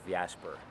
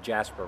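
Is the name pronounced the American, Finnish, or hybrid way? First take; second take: hybrid; American. First: The name mixes English and Finnish pronunciation. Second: The name has an American English pronunciation. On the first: This is a compromise used when introducing oneself. "a compromise between Jasper and my real name" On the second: This is how Americans usually say it. "Americans usually tend to go the Jasper route"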